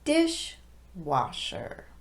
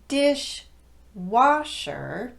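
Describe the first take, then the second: First: The main stress falls on the first part. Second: The main stress falls on the second part. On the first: The speaker calls it right. "it becomes dishwasher" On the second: The speaker calls it wrong. "Instead of dishwasher"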